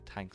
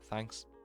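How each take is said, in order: First: The word begins with a t sound. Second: The word begins with a th sound. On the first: "We just say thanks" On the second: "I struggle to say that. You can probably hear it when I say it"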